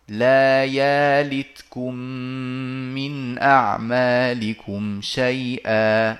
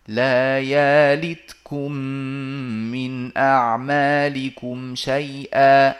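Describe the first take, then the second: The two takes are said the same way.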